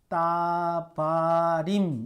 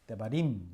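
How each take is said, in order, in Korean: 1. 첫 모음은 온전한 'a'예요. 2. 첫 모음은 짧고 약화된 모음이에요.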